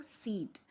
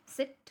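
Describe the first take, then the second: First: Long, held vowel in सीट; लंबी ई. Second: Short, quick vowel in सिट; छोटी इ. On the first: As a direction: stretch the ee in सीट with more breath force. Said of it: "breath force भी ज़्यादा लगी". (सीट में खिंची हुई लंबी ई) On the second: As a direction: say सिट with a brief, lightly stressed i. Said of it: "कम time लेती है". (सिट में छोटी, हल्की इ) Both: Shown as a demonstration.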